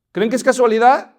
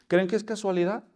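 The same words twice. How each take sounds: First: "casualidad" punched louder and higher, rising; the same question, now loud with "casualidad" stressed; emphatic repeat. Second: Said in the usual way. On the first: Shown as a demonstration. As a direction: press "casualidad" hard with a rise.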